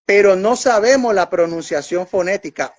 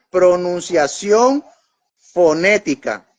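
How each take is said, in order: First: Said in the usual way. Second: Pronunciación fonética, each word slow and weighted; slow, spelled-out stress. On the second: Shown as a demonstration. Preacher warning the congregation to mark this, slow deliberate stress. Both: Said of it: "Ojo con esto que le estoy diciendo".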